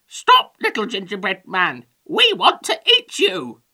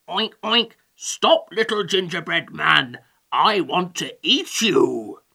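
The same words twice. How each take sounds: First: High, squawky hen character; chicken voice. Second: Oinking greedy pig character; oink, then demand it in a piggy voice. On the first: Hungry chickens to the gingerbread man, squawking. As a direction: squawk the demand loudly like a hen. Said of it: "they said". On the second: Hungry pig to the gingerbread man, piggy voice. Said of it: "said one pig". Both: A narrator's reading.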